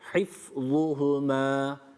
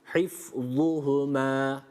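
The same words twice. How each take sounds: Both takes have the same delivery.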